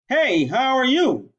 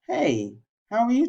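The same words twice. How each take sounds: First: The greeting is spoken loudly. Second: The greeting is spoken at moderate volume. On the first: The speaker calls it wrong. "Loud voice is" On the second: The speaker calls it right. "Professional voice"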